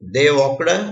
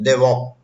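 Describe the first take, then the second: First: The final d sound is clearly pronounced. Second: The final d sound is faint or dropped. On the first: This is careful speech for a classroom. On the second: This is everyday casual speech.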